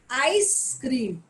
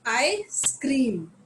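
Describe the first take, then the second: First: The stress falls on the first part. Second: The stress falls on the second part. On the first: It names the frozen dessert. "when I say ice cream, so यहाँ पे जो stress है वो ice पे है" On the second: It means the speaker shouts loudly. "पूरा पूरा जो stress है वो scream पे है"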